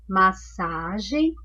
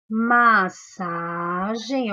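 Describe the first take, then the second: First: Massagem said slowly with a rise at the end; slow teacher reading. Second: Massagem drawn out very slowly; slow syllable by syllable. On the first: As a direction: repeat massagem slowly for the class. (massagem devagar, com subida no fim) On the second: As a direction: pronounce massagem slowly to show the digraph. (massagem bem devagar) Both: Shown as a demonstration. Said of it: "uma outra palavra que tem dígrafo".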